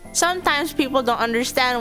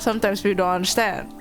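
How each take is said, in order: First: The words are clearly articulated with the mouth open. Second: The words are mumbled with the mouth barely open. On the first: The speaker calls it right. "if I say it now with with you know utilizing my Invisalign" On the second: The speaker calls it wrong. "Usually I don't really open my mouth"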